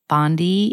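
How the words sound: Bondi is said with an American pronunciation. This is how Americans say the name.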